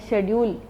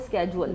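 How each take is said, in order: First: The word begins with an sh sound. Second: The word begins with an sk sound. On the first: This is the older way people said it. "जैसे हम लोग कहते थे एक है" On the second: This is how young people say it now. "अब हो गया वो"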